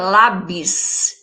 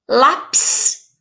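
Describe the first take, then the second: First: The second syllable starts with a B sound. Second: The second syllable starts with a P sound. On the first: The speaker calls it wrong. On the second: The speaker calls it right.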